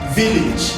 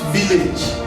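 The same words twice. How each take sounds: First: The last vowel is the short i sound. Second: The last vowel is not the short i sound. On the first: The speaker calls it right. "is village" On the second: The speaker calls it wrong. "It's not village"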